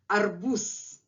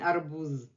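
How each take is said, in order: First: The word ends with a hissing s sound. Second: The word ends with a buzzing z sound. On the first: The speaker calls it right. "at the end of the word Z becomes voiceless S" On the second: The speaker calls it wrong. "I'm not saying arbuz"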